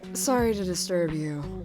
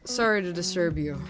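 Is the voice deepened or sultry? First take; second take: sultry; deepened. First: The voice is soft and sultry. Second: The voice is normal but slightly deepened. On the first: "I can do my kind of sultry voice" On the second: "I'll just go with my normal voice and just kind of deepen a bit"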